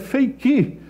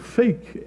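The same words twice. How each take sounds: First: The word is said with a Brazilian Portuguese pronunciation. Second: The word is said with an English pronunciation. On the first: The speaker calls it right. "Eu concluí que é fake" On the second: The speaker calls it wrong. "essa expressão que nós pronunciamos errado"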